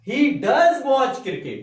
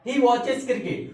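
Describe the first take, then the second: First: Loud and slow, hitting "does" hard; emphatic, thundering. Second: Said in the usual way. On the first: Shown as a demonstration. Teacher showing emphasis to doubting parents, slow loud "does". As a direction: boom out "does" to make them believe. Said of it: "मैंने थोड़ा गरज के बोला, emphasis देके बोला". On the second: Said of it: "तो मैंने बोला".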